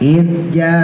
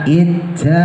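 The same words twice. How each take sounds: First: The j sound is pressed firmly without breath. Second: The j sound is released with escaping breath. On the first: The speaker calls it right. "jimnya tekan jangan sampai hamas" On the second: The speaker calls it wrong. "yang hamas gimana?"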